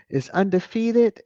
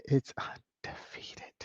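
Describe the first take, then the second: First: Said in the usual way. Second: Whispered, much softer, slow. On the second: Shown as a demonstration. Streamer whispering the punchline to the viewers. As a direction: lean in and whisper it.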